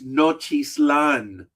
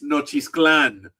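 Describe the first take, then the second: First: There is no K sound before the last syllable. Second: A K sound comes before the last syllable. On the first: This is how it looks when read from the spelling. "If you look at it" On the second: This is how local Spanish speakers say it. "but in Spanish"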